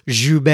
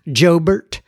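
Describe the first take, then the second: First: The name is said with a French-sounding pronunciation. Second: The name is said with a Texan-sounding pronunciation. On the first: "I'm assuming you pronounce this Joubert. That sounds a little French to me" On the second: "or as we'd say here in Texas"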